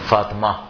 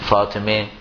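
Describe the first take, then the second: First: The name ends in an 'a' vowel. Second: The name ends in an 'e' vowel. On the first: This is how Afghans say it. "جو افغانی بولتے ہیں وہ ہے سے پہلے فتح لگاتے ہیں" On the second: This is how Iranians say it. "ایرانی ... وہ ہے سے پہلے زیر لگاتے ہیں"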